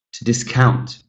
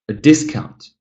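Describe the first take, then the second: First: "discount" as a verb, COUNT stressed; stress on second syllable. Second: "discount" as a noun, DIS higher and stronger; stress on first syllable. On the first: Teacher repeats the verb for students, second-syllable stress in "discount". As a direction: let DIS be light, stress COUNT in "discount". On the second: Teacher repeats the noun for students, first-syllable stress in "discount". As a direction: put the weight on DIS in "discount". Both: Shown as a demonstration. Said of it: "this follows the pattern here".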